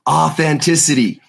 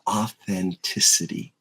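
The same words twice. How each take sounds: First: It is said loudly. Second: It is said at normal volume.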